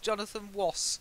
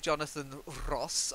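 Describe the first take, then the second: First: The R is replaced by a W sound. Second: The R is rolled as a trill. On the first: This imitates someone who cannot pronounce R. "He can't pronounce the R" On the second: This is an old-fashioned way nobody uses anymore. "I never roll R. I would never say Jonathan Ross"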